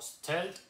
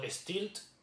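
First: The word is said with English pronunciation. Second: The word is said with Spanish-style pronunciation.

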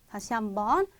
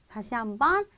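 The two takes are said the same way.

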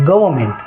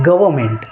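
Both takes have the same delivery.

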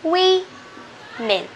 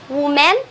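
First: The first syllable sounds like wih. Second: The first syllable sounds like woo. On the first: The speaker calls it right. "No, this is women" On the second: The speaker calls it wrong. "Is it woman?"

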